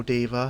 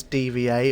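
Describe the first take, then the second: First: Diva said as one word, DEE-vuh; name as one word. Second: D V A as three separate letter names; spelled-out name. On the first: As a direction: run it together as Diva, two syllables. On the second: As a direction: say D V A letter by letter, dee-vee-ay. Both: Shown as a demonstration. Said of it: "however you wanna pronounce her name".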